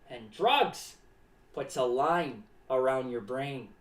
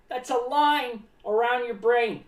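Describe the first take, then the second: First: Ominous low warning. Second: Said in the usual way. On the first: Acted. Clown warning kids about drugs, low and ominous. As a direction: drop the pitch way down on "line".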